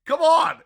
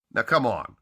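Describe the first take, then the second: First: Much louder and higher, pleading; exasperated shout. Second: Said in the usual way. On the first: Real, not acted. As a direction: belt it out in disbelief. Enthusiastic plea to read the novels.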